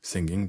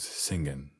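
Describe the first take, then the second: First: The final G sound is pronounced. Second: The final G sound is dropped.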